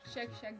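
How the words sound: The word starts with a soft 'shch' sound. This is how Tatars say it. "Как они говорят, знаете?"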